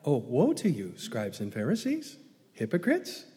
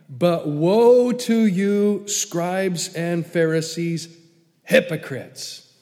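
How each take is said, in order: First: It is said in a light, playful tone. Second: It is said in a harsh, scathing tone.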